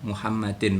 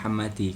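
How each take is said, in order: First: The word ends with an added n sound. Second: The word ends on a bare i vowel. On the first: The speaker calls it right. "ada tanwinnya" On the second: The speaker calls it wrong. "bukan Muhammadi"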